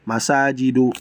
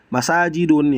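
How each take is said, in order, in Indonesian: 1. Kata ini berakhir dengan vokal biasa. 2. Kata ini berakhir dengan bunyi n. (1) "yang benar adalah" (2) "bukan ... itu keliru"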